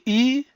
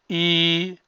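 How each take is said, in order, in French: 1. La voyelle est courte. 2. La voyelle est longue. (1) "Ça c'est I" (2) "quand on ajoute le I comme ça ou comme ça, ça devenait I"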